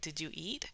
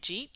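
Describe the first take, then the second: First: Each word is said slowly and separately. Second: The words run together into one short syllable. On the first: "slow that down or actually enunciate each word" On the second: "you have no idea what they mean"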